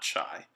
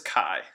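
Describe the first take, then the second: First: The word is said like 'chee'. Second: The word is said like 'kai'. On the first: The speaker calls it wrong. "not chi" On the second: The speaker calls it right. "it is chi"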